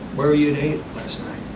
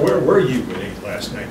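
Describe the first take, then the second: First: The question is asked in a relaxed, casual tone. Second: The question is asked in a harsh, accusing tone. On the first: The question is just friendly small talk. The speaker calls it right. "You see my tonality? It's the same. It's casual" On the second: The listener is being treated as a suspect. The speaker calls it wrong. "I don't go"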